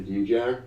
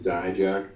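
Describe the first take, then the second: First: D-Jack said "DEE-jack"; relatives' pronunciation. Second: Dijak said "DIE-jack"; parents' pronunciation. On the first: Wrestler giving his relatives' surname form, DEE-jack. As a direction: say D-Jack starting like the letter D. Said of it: "pronounce the last name". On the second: Wrestler giving his parents' chosen form, DIE-jack. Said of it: "always chose to pronounce it". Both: Shown as a demonstration.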